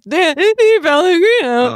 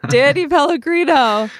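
First: High, loud replay of the big intro; mock announcer shout. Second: Big host announcement, voice cracking at the top. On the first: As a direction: belt the name like a game show host. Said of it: "I was like". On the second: Acted. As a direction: belt the name until the voice cracks. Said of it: "my voice cracked at the end".

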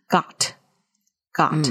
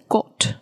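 First: Got with an open American vowel. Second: Got with a rounded short O, slowly; British got. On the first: Teacher shows the American vowel first. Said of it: "G O T发成". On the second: Teacher demos the British short O. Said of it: "所以got会变成got". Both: Shown as a demonstration.

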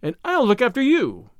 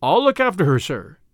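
First: High-pitched indignant heroine; high, pointed comeback; resentful retort. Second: Lightly voiced, dependable Tommy; mildly earnest promise; earnest young man. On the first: Acted. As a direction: throw it back at him, voice raised in pitch. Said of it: "retorted Tuppence, resenting the manly assertion". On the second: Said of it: "said Tommy".

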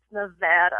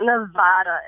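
First: "Nevada" as nuh-VAD-uh; short-A pronunciation. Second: "Nevada" as nuh-VAH-duh; broad-A pronunciation. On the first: Host reading a bumper sticker, "Nevada" as nuh-VAD-uh. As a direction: say "Nevada" with the vowel of cat. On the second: Host reading a bumper sticker, "Nevada" as nuh-VAH-duh. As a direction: say "Nevada" with the vowel of father. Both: Shown as a demonstration. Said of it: "bumper sticker that says".

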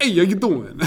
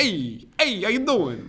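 First: Loud, higher mock Brooklyn accent greeting; hammed-up Brooklyn accent guy greeting. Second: Put-on higher, hammy Brooklyn accent greeting; badly faked Brooklyn accent, pitched up. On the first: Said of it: "I used to try to do just a Brooklyn accent". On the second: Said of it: "I was trash just now".

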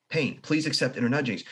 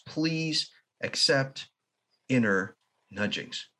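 First: Said in the usual way. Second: "Please accept inner nudgings" very slow, each word spaced out; slow deliberate phrase. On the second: Shown as a demonstration.

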